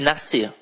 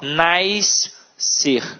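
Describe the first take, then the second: First: The s and c make one sound. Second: The s and c are sounded separately. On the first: The speaker calls it right. "É piscina e nascer" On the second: The speaker calls it wrong. "fazem uma hipercorreção"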